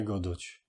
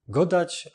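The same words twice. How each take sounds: First: Godoć said with an o in the last syllable, lower and softer; godoć, the mistaken o ending; wrong form. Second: Godać said with a clear a; godać, with an open a in the last syllable; correct form. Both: Shown as a demonstration. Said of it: "a nie godoć".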